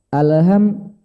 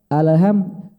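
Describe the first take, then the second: Both takes have the same delivery.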